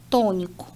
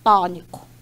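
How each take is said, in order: First: The stressed o vowel is closed. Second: The stressed o vowel is open. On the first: This is the Brazilian pronunciation and spelling. "a gente fecha" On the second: This is the Portuguese pronunciation and spelling. "eles abrem"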